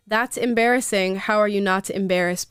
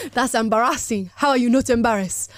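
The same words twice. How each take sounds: First: Said in the usual way. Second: Put-on lightly Nigerian-accented read; a hint of Nigerian accent. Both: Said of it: "Gotta bring out my Nigerian accent for that".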